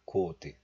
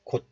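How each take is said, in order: First: The final t sound is audibly released. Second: The final t sound is closed, not released. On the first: The speaker calls it wrong. "Not 곧" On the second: The speaker calls it right. "but just 곧. ... syllable closure occurs"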